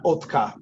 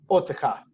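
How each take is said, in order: First: No vowel is sounded between t and k. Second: A short vowel is sounded between t and k. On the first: The speaker calls it wrong. "We normally pronounce this as Otka" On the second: The speaker calls it right. "Vocal shiwa"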